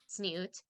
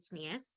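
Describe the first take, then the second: First: It is said in modern Hebrew style, ending in t. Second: It is said in Yiddish style, ending in s. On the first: This is the modern Hebrew form. "versus modern Hebrew inflection"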